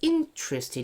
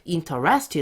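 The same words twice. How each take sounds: First: The stress is on the first syllable. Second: The stress is not on the first syllable. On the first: The speaker calls it right. "여기가 강세가 앞에 있어요" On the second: The speaker calls it wrong. "interested 하지 마시고"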